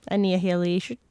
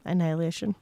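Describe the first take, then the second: First: "Annihilation" stretched into extra syllables, like annie-a-hilly-ay-shun; "Annihilation" said as annie-uh-heely-ay-shun; garbled pronunciation. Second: Said in the usual way. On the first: Shown as a demonstration. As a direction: mangle "Annihilation" by sounding out an H in the middle. Deliberately garbles the title's pronunciation.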